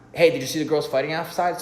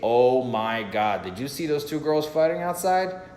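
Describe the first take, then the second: First: It is spoken really fast. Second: It sounds genuinely excited and surprised.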